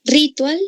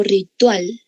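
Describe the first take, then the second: First: "Ritual" as RÍ-tual, first syllable high; misplaced stress. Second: "ritual" as ri-TUAL; stress on last syllable. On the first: Teacher testing the class's answer, "Ritual" stressed RÍ-tual. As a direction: punch RI in "Ritual", pitched up. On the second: Teacher giving the correct option to the class, "ritual" stressed ri-TUAL. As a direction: put the weight on TUAL in "ritual". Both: Shown as a demonstration. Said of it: "¿Así pronunció?".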